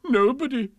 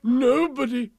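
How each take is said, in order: First: High, loud mock whimper; hammed-up self-pity. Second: High, loud, grand declaration; big happy royal exclamation; elated king. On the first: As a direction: wail it like a wounded king. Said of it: "he whimpered". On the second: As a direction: proclaim it fondly, restored to good cheer. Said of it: "as he kissed her tenderly". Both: A narrator's reading.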